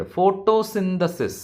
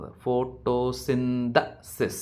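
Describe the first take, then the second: First: Said in the usual way. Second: "Photosynthesis" broken slowly into pho-to-SYN-the-sis; "Photosynthesis" very slowly, each syllable separated; syllable-by-syllable stress demo. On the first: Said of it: "ഇവിടെ എവിടെയാണ് stress കൊടുക്കുന്നത്?". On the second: Shown as a demonstration. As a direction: draw out "Photosynthesis" syllable by syllable for learners. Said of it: "മൂന്നാമത്തെ സിലബിളിലല്ലേ ഇവിടെ പ്രാധാന്യം".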